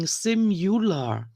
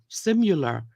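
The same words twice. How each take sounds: First: "simular" drawn out as SIM-you-lar; mispronounced word. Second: "simular" run together as SIM-yuh-ler; quicker mispronunciation. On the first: Woman quoting a commenter on her mistake, mispronounced word. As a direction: slowly spell out the wrong "you" in "simular". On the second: Woman repeating the commenter's version, quicker mispronunciation. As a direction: say "simular" with a quick, reduced middle. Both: Retold or imitated. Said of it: "It sounds like you're saying".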